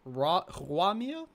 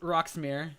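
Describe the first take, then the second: First: The first part sounds like French 'roi', 'rwah'. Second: The first part sounds like English 'rocks'. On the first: "you could technically maybe pronounce it Ruamir" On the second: "always said it Rox Roxmere"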